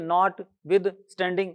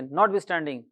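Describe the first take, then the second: First: The three parts are split by short pauses. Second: The three parts run together without pauses. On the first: The speaker calls it wrong. "ऐसे नहीं बोले" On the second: The speaker calls it right. "बोलेंगे उसी तरह से"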